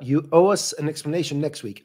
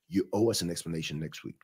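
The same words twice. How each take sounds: First: The voice sounds light and joking. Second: The voice sounds stern and serious.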